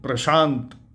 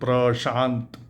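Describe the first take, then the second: First: It starts with pr and has sh. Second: It starts with pr and has sh.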